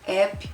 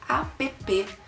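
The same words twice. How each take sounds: First: The word is pronounced as in English. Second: The word is pronounced as Portuguese letters suggest. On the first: "Eu falo inglês, então eu uso app" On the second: "como a gente soletraria essa palavrinha app com as letras do nosso alfabeto"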